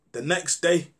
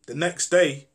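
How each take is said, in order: Both takes have the same delivery.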